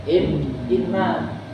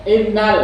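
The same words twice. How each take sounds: First: "inna" pressed hard and slow; stressed. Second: "Innal" hit much higher and louder; forceful stress. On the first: Teacher showing students how to open a sermon, "inna" slow and pressed. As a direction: lean on "In, inna", stretching it. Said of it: "harus ditekan". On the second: Teacher showing how a sermon should start, "Innal" loud and forceful. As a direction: punch "Innal" hard like a preacher. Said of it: "ya, gitu ya, keras". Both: Shown as a demonstration.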